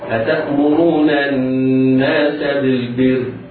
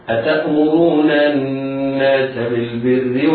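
First: It stops on a bare final r sound. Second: It runs straight on into the next words. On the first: "إذا وقفنا عليها نقف عليها في التسكين هكذا" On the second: "وفي الوصل"

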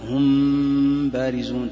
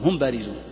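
First: The m is hidden with a held nasal hum. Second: The m is clear, without a lengthened nasal hum. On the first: "فإذا كان هذا الأقرب إخفاء فتقول مثلا ... تحس الغنة" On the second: "ما يصلح تسميه إظهار لأنك لن تظهر الغنة فيها، تقول"

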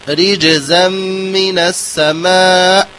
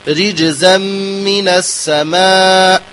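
The two takes are said the same way.

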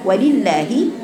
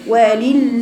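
First: The first lam is opened with a vowel. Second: The first lam is held closed without a vowel. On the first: The speaker calls it right. "افتحي يا بنت" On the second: The speaker calls it wrong. "انت قلتي ولل من اول اللام الاولى قافله"

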